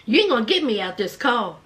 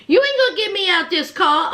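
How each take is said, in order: First: Low, fast imitated refusal; low defiance. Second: Fast, lifted-voice imitated refusal; raised defiance. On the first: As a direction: refuse quickly in a dropped voice. Sister's first, low refusal. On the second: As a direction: repeat the refusal with more force, voice up. Sister's refusal repeated, raised.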